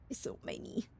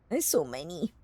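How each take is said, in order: First: Breathy whispered aside. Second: Said in the usual way. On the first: Shown as a demonstration. Streamer whispering to chat, hushed whisper.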